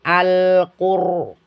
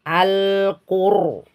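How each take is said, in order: No difference in how they are said.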